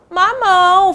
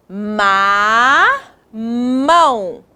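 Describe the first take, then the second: First: Said in the usual way. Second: "Ma" held long, pause, then "mão"; syllable by syllable. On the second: Shown as a demonstration. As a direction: sound out "Ma, mão" in two drawn-out parts. Teacher joining syllables into word.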